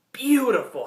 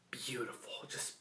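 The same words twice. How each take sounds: First: Higher, louder burst of praise; excited exclaim. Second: Breathy hush of admiration; awed whisper. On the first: Reviewer gushes over the dragon, excited exclaim. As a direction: let it burst out with delight. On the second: Reviewer whispers praise of the dragon, awed whisper. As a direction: whisper it like you're in awe. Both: Real, not acted.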